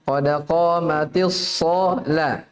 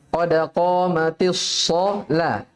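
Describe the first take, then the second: Both takes have the same delivery.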